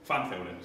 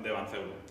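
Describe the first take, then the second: First: The name is said with German pronunciation. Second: The name is said with Spanish pronunciation.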